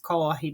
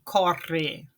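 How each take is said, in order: First: The rr sounds like a Spanish j. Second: The rr sounds like a Spanish r. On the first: This is the general way it is said. "Ele tem o som do J do espanhol" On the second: Some speakers in Brazil say it this way. "esse som parecido com o do espanhol"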